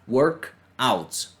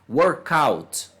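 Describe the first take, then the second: First: The two words are said apart, with a break. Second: The two words run together as one word. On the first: The speaker calls it wrong. "eu não vou falar" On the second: The speaker calls it right. "eu vou juntar os sons ali"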